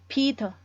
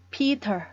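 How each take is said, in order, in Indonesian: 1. Bunyi t di tengah adalah t yang tegas. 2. Bunyi t di tengah adalah t yang tegas.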